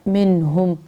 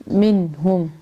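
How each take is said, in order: No difference in how they are said.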